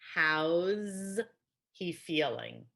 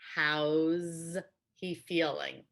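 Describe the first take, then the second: First: How and is merge, ending in a z sound. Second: How and is merge, ending in a z sound.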